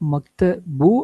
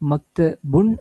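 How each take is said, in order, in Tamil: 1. இந்த வார்த்தை n இல்லாமல் உயிரெழுத்தில் முடிகிறது. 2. இந்த வார்த்தை இறுதியில் n ஒலியுடன் முடிகிறது. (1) "அண்ட் இல்லை" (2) "அண்ட் இருக்குது"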